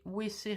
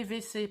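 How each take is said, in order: First: "W C" said as "wé cé", Belgian style. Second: "W C" said as "vé cé", French style. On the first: Real, not acted. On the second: Shown as a demonstration. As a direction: correct it to "vé cé". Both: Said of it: "si je dis encore W C".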